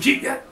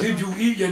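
First: It is run together fast, Geechee style. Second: Each word is said plainly and separately.

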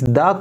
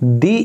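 First: The word ends in a short 'uh' vowel. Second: The word ends in a long 'ee' vowel. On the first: "इस द को" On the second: "दी इसीलिए बोला है क्योंकि इससे अगले वाला जो शब्द है वो शुरू होता है वावल वर्ड से"

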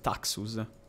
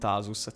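First: The middle consonant is a ks sound. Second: The middle consonant is a plain s sound. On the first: The speaker calls it right. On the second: The speaker calls it wrong. "non Tasus"

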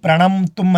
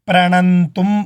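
First: The lips close fully on the middle nasal. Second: The middle nasal is made without closing the lips. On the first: The speaker calls it wrong. "అని చెప్పకూడదు, నోరు ముయ్యకూడదు" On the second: The speaker calls it right. "అనాలంతే"

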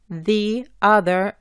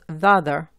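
First: The vowel of 'the' is kept apart from 'other'. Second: The vowel of 'the' runs straight into 'other'. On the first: "en vez de decir the other" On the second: "juntamos las dos vocales"

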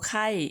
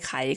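First: The syllable is said with a falling tone. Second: The syllable is said with a rising tone. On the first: "โท" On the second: "ขอไอไข่"

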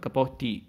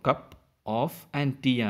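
First: The words run together, f sound dropped. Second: Each word is said separately, f sound kept. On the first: "ഫ് sound ഒഴിവാക്കിയിട്ട് നമ്മൾ കപ്പ് ഓഫ് ടീ എന്നിങ്ങനെ ഒന്നിച്ച് പറയാറുണ്ട്" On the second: "സിംഗിളായിട്ട് ഓരോ word പറയുമ്പോൾ"

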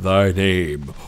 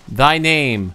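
First: It is said in a booming, echoing put-on voice. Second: It is said in a plain voice.

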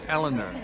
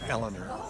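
First: The name is said the speaker's everyday way. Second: The name is said the way used on the show. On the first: The speaker calls it right. "the way you do in real life" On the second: The speaker calls it wrong. "I've been mispronouncing Eleanor by calling her Eleanor"

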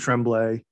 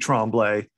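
First: It is said with a New England accent. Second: It is said with a French Canadian accent.

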